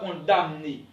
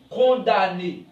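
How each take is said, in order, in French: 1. Le son M se prononce. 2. Le son M est muet. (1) "On ne dit pas condamné" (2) "On dit condamné. M ne se prononce pas"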